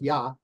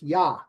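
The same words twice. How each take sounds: First: The word ends on the vowel with no breath. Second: The word ends with an audible breathy h. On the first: The speaker calls it wrong. "it's not just Yah" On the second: The speaker calls it right. "it's kind of like you're taking a breath"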